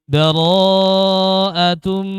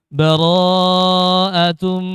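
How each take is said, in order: No difference in how they are said.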